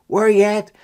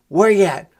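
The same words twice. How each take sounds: The two takes are said the same way.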